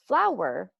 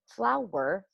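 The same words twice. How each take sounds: First: Said in the usual way. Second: "flower" slowed into two clear beats, flow-er; "flower" said slowly, flow-er; syllables split. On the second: Shown as a demonstration. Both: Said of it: "as you can hear when I say it that way".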